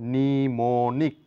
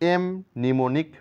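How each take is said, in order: First: The m sound is silent. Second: The m sound is pronounced. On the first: The speaker calls it right. "এম লেটারটির কোনো sound নেই" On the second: The speaker calls it wrong. "বলতে পারি না"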